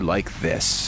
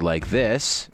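First: The voice falls at the end. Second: The voice rises at the end. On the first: The speaker calls it right. "It had to be like this" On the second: The speaker calls it wrong. "you could never say like this"

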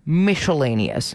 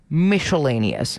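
First: The middle has a sh sound. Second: The same.

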